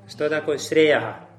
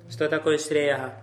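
Both takes have the same delivery.

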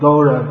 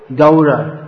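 First: The first vowel is a steady o-like sound. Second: The first vowel glides, a softened 'ow' sound. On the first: "It's often said Gora" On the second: "something like that"

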